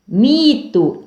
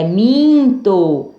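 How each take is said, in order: First: Mito with an oral i; slow Mito, nothing through the nose; oral vowel. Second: Minto with a held nasal in; slow minto, first vowel through the nose. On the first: (Mito sem som nasal) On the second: (minto com som nasal) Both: Shown as a demonstration. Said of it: "Som nasal".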